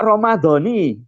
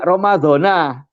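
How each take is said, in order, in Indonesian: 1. Kata ini diakhiri dengan vokal 'i'. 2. Kata ini diakhiri dengan vokal 'a'. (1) "Ramadhani bil jari diwaca kelawan jer" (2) "tidak Ramadhana"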